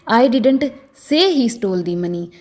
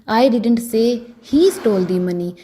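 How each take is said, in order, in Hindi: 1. ज़ोर 'say' शब्द पर है। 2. ज़ोर 'he' शब्द पर है। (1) "अगर मैं से पर जोर डालकर बोलूं" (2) "अगर मैं ही पर जोर डालकर बोलूंगी"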